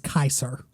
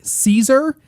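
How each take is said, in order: First: The name begins with a hard 'k' sound. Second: The name begins with a soft 's' sound. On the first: The speaker calls it right. "it was Kaiser" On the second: The speaker calls it wrong. "his name wasn't Caesar"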